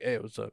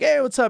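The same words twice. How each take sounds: First: The greeting sounds cold and dismissive. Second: The greeting sounds warm and friendly.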